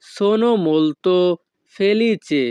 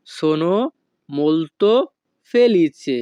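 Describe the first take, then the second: First: Very slow and drawn out; slow demo. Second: "Sono", "molto", "felice" said apart with pauses; word by word. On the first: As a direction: stretch every syllable for learners. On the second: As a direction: break it into single words. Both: Shown as a demonstration.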